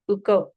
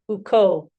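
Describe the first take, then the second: First: The two vowels are split by a catch. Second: The two vowels merge into one long vowel. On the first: The speaker calls it wrong. "instead of uko, no" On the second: The speaker calls it right. "it's drawn out"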